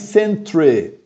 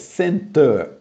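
First: The word ends with a 'tre' sound. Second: The word ends with a 'ter' sound. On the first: The speaker calls it wrong. "não fale centre, por favor" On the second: The speaker calls it right. "É center, ok?"

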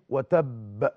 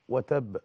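First: The final b is doubled with a strong echo. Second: The final b is single with a lighter echo. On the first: "أقوى أنواع المقلقل المشدد الموقوف عليه" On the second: "ثاني مرتبة الساكن الموقوف عليه"

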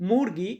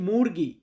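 The two takes are said the same way.

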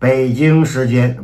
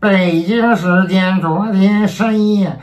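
First: It is said in a plain, ordinary tone. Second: It is said in a pompous imperial decree tone.

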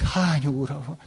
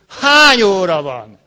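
First: It sounds fearful and worried. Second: It sounds angry and demanding. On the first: The asker is worried something bad happened. "Félelemmel" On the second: The asker is demanding an explanation. "De haraggal is"

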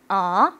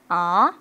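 First: The pitch rises from middle to high. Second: The pitch rises from middle to high.

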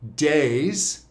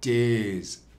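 First: The vowel is a plain, open 'ay' sound. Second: The vowel moves forward toward an 'ee' sound. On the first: "She doesn't say days" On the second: "she says days, not because of an accent, because she wants to warm this up"

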